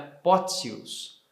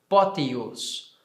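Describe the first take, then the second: First: The middle T sounds like TS. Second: The middle T sounds like plain T. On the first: "eu estou dizendo agora no latim eclesiástico" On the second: "como seria no latim reconstituído este som de T I U"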